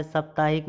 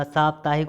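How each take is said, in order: First: साप्ताहिक opening on short "sap"; wrong short vowel. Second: साप्ताहिक opening on long "saap"; long first vowel. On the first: Teacher showing the error, short "sap" in साप्ताहिक. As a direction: clip the first vowel of साप्ताहिक. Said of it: "साप्ताहिक होता है". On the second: Teacher correcting students, long "saap" in साप्ताहिक. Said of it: "होता है". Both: Shown as a demonstration.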